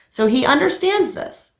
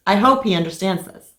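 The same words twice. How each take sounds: First: So he understands this with pitch jumping high on understands; confident claim. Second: Said in the usual way. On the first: Real, not acted. Vlogger telling viewers her husband agreed, high and confident. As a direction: assert it brightly, sure of herself.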